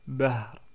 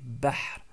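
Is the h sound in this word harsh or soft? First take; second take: soft; harsh. First: The h is a soft, light breathy sound. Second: The h is a harsh sound from the throat. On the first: The speaker calls it wrong. "j'ai pas dit bahr" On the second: The speaker calls it right. "c'est bahr"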